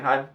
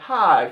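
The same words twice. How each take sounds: First: It sounds cold and dismissive. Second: It sounds eager and relieved. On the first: The speaker wants to be left alone. "you don't want any business with this guy" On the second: The speaker has been looking for this person. "finally I found you"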